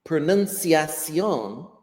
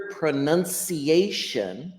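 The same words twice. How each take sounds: First: "Pronunciación" said the Spanish way, ending in a stressed "-syon"; slow Spanish demo of "Pronunciación"; Spanish pronunciation. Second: "pronunciation" said the English way, ending in "-ay-shun"; careful English demo of "pronunciation". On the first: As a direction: say "Pronunciación" slowly in Spanish, stress on the last syllable. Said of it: "is Spanish for the same word". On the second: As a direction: say "pronunciation" syllable by syllable in English, stressing the "a". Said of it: "is English". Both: Shown as a demonstration.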